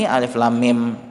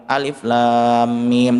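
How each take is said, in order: First: Said in the usual way. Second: "alif lam mim" slowly, holding lam and mim long; drawn-out recitation. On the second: Shown as a demonstration. Teacher recites the letters to the class, slow and drawn out. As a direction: stretch out the vowels in "lam" and "mim".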